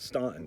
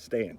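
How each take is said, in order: First: The first vowel sounds like 'aw' in 'staunch'. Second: The first vowel sounds like 'a' in 'stand'. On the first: The speaker calls it wrong. "is not Staunton" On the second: The speaker calls it right. "it's Stanton"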